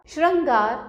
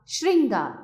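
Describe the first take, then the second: First: श्रृंगार said as "shran-gaar"; higher, louder श्रृंगार with "ra"; misspelt ra sound. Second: Said in the usual way. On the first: Shown as a demonstration. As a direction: swap "shrin" for "shran" in श्रृंगार. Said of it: "री और र की अशुद्धियां". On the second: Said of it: "री और र".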